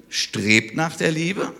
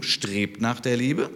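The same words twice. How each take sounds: First: "strebt nach der Liebe" slow and higher, leaning hard on "der"; slow emphatic quote. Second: "strebt nach der Liebe" slow, with the stress falling on "Liebe"; repeated with weight on Liebe. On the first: Preacher stresses Paul's command to the congregation, "der" lifted and slow. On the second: Preacher repeats Paul's command to the church, slow, stressing "Liebe". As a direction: settle the line and land firmly on "Liebe". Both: Shown as a demonstration. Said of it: "also nochmal die Betonung".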